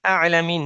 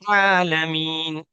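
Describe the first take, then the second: First: The word starts with a plain vowel. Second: The word starts with a throaty ain sound. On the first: The speaker calls it wrong. "आलमीन नहीं" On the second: The speaker calls it right. "फिर आइन को निकालना है।"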